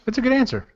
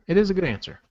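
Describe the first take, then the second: First: Said in the usual way. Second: "is" stressed firmly, falling. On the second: Shown as a demonstration. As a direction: lean on "is" to insist.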